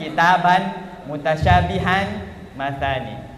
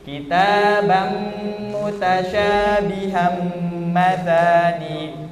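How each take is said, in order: First: The final n sounds are pronounced as plain n. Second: The final n sounds become a held nasal m. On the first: The speaker calls it wrong. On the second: The speaker calls it right. "langsung di"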